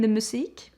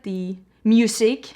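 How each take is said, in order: First: It is said with a Swedish pronunciation. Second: It is said like the English word music. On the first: This is the proper name of the product. The speaker calls it right. "you mean the musique?" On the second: This is how other people say it. The speaker calls it wrong. "all the mirrors that people get, the music"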